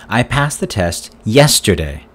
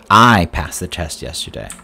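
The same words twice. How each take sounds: First: The word 'yesterday' carries the main stress. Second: The word 'I' carries the main stress. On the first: It says when the test was passed. "When did you pass the test?" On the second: It says who passed the test. "Who passed the test yesterday?"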